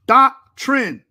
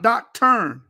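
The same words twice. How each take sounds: First: "Doctrine" said loud and clear as DOC-trin, ending in -trin; correct pronunciation. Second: "doctrine" slowed down and mangled into dock-turn; mocking the mispronunciation. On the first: Shown as a demonstration. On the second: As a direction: draw out "doctrine" as dock-turn to mock the mistake. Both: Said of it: "Not doctrine".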